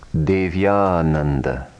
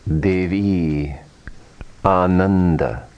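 First: The two words are merged into one. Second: The two words are said separately.

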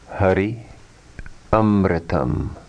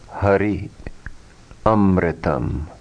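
The two takes are said the same way.

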